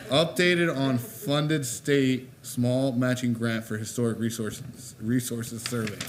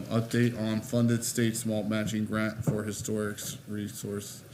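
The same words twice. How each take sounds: First: Slow, emphatic second attempt at a tricky title; careful tongue-twister retry. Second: Said in the usual way. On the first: Real, not acted. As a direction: pick through a tongue twister word by word, amused. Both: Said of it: "what a tongue twister".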